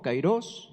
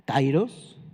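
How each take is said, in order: First: Kairos said with the stress on the final O, kai-ROS. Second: Said in the usual way. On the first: Shown as a demonstration. Pastor teaching the Greek word to the congregation: kairos with the stress on the final O, kai-ROS. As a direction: put the weight on the last syllable of kairos, kai-ROS. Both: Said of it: "ahí tiene acento en la O".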